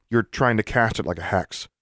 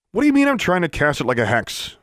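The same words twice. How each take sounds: First: Said in the usual way. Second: High-pitched, incredulous demand; indignant demand. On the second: A narrator's reading. Vexed student challenging his corrector, demanding. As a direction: throw the words back indignantly. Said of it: "Pete demanded".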